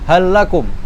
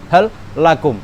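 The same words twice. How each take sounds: First: The two L sounds merge into one long L. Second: The first L is pronounced separately from the second. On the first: The speaker calls it right. "harus diidghamkan" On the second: The speaker calls it wrong. "enggak bisa"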